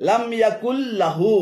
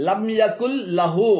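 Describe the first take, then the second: The two takes are said the same way.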